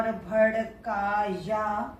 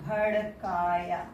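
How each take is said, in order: First: भड़काया drawn out slowly as written; spelling pronunciation. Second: भड़काया said naturally, at normal speed; spoken pronunciation. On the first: Teacher slowly spells out भड़काया. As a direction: sound out भड़काया slowly, letter by letter. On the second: Teacher gives the spoken form of भड़काया. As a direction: say भड़काया the everyday way. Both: Shown as a demonstration. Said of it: "को बोलेंगे".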